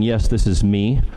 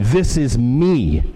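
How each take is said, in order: First: Said in the usual way. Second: "This is me." slow, each word weighted, "me" landing hard; "This is me." drawn out with a heavy final "me"; emphatic me. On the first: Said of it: "there's a way of saying". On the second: Shown as a demonstration. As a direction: say "This is me." slowly, leaning on "me" as a firm claim. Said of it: "It's an emphatic "me".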